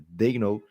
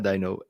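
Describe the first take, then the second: First: The name is said like Dano. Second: The name is said like Dino. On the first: The speaker calls it right. "é Dano" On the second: The speaker calls it wrong. "Falavam Mark Dino, e não é Dino"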